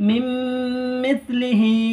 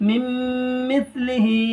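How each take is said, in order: The two takes are said the same way.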